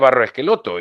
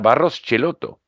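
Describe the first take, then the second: First: The surname begins with an 'esk' sound. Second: The surname begins with a 'ch' sound. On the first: This is how everyone else says it. The speaker calls it wrong. "el mundo le decía Barros Esqueloto" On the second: This is how the family itself says it. The speaker calls it right. "para ellos era Barros Schelotto"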